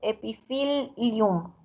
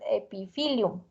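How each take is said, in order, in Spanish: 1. La doble L se sostiene larga, se pronuncia dos veces. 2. La L es corta, se pronuncia una sola vez. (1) "sería la, la, pronunciación correcta" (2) "para nosotros es epithelium, una sola L"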